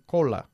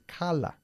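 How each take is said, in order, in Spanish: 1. La primera vocal suena como una o redondeada. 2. La primera vocal suena como una a abierta. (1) "No se dice cola" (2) "es cala"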